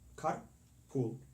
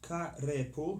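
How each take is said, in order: First: Car runs straight into pool with no vowel. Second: An extra vowel is sounded between car and pool. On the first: The speaker calls it right. "but car, carpool" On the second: The speaker calls it wrong. "not like that"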